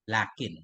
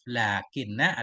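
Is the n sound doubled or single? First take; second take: single; doubled. First: The n sound is single and light. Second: The n sound is doubled and held. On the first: "wa takhfif boleh juga dengan takhfif" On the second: "Lakinna bitasdid dengan tasdid"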